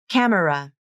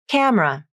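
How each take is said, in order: First: The word is said with three syllables. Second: The word is said with two syllables. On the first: "you may hear someone say camera" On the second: "I prefer to use the pronunciation with vowel syncope"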